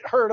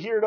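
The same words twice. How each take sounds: First: Said in the usual way. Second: "heard" said as "heerd"; country pronunciation. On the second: Real, not acted. Preacher slipping into country talk, "heard" pronounced "heerd". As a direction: say "heard" country-style, with an ee sound. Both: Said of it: "Heard, that's country talk".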